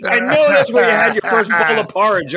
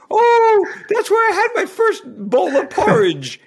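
First: Higher, louder, mock weary brush-off of "porridge"; fed-up retort. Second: High, loud, gushing mock British accent; a bad British accent, delighted by the memory; Piers in British accent. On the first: Answering crewmate's repeated porridge story, mock exasperated brush-off. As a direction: sigh it out, fed up with hearing it. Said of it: "it started getting old". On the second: Imitating crewmate gushing over his childhood spots, mock British accent. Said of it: "I can't do a British accent".

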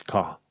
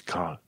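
First: "ca", British "car" ending on open "ah"; silent final R. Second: "car" with the R pronounced at the end; sounded final R. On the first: Teacher showing British car, "ca" without R. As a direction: leave the R off, "ca". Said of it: "R-ul la final nu pronunți". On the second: Teacher showing what to avoid, "car" with R. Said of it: "Nu zici car". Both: Shown as a demonstration.

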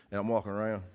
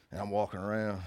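Both takes have the same delivery.

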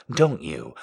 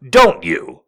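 First: Said in the usual way. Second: "Don't" hit louder with a falling tune; insistent repeat. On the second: Acted. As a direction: press "Don't you" harder.

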